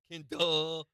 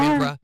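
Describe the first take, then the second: First: The name is said without an R sound. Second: The name is said with an R sound. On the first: "Ken duh is more like you don't want him to say duh" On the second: "There is now. I put it in there for you"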